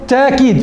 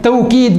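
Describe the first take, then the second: First: The glottal stop is softened, almost gliding. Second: The middle consonant is a w sound. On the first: "وتلفظ تأكيد بتسهيل الهمزة" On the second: "تلفظ توكيد بالواو"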